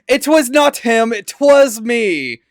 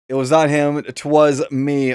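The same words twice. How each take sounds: First: It is said in a put-on character voice. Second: It is said in a natural, everyday voice.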